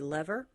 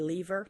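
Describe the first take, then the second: First: It is said with the American pronunciation. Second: It is said with the British pronunciation. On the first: "Americans tend to say lever" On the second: "my husband is from the U K, and they say lever"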